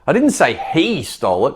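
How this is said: The stress is on he.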